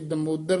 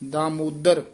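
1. ਪਹਿਲਾ ਸਵਰ ਛੋਟਾ ਹੈ। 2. ਪਹਿਲਾ ਸਵਰ ਲੰਬਾ ਹੈ। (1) "ਇਹ ਦਮੋਦਰ ਨਹੀਂ ਕਹਿ ਦੇਣਾ" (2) "ਦਾਮੋਦਰ ਕੰਨਾ ਸ਼ੁੱਧ ਬੋਲਣਾ ਹੈ"

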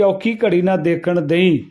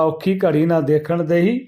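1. ਅੰਤਲਾ ਸ਼ਬਦ ਇੱਕ ਹੀ ਅੱਖਰ ਵਾਂਗ ਕਿਹਾ ਜਾਂਦਾ ਹੈ, dei। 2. ਅੰਤਲਾ ਸ਼ਬਦ ਵੰਡ ਕੇ de hi ਵਾਂਗ ਕਿਹਾ ਜਾਂਦਾ ਹੈ।

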